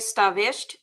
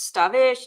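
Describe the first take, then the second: First: The name ends with a clear T sound. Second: The name ends without any T sound. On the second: This is another of the ways people say the name. "all different ways they say it"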